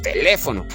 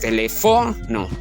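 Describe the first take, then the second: First: The stress is on the second syllable. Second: The stress is on the third syllable. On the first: The speaker calls it right. "Si llevara la fuerza de voz en le" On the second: The speaker calls it wrong. "Si llevara la fuerza de voz en fo"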